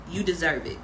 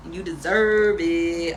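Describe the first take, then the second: First: Said in the usual way. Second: "deserve" drawn out, slower and louder; stress on deserve. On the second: Shown as a demonstration. Reader affirming her viewers, stretching out "deserve". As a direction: lean into "deserve" and stretch it slowly.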